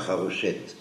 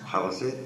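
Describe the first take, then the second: First: The middle consonant sounds like sh. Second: The middle consonant sounds like s. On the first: The speaker calls it wrong. "ne dites pas harochette" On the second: The speaker calls it right. "Haroset, c'est la racine"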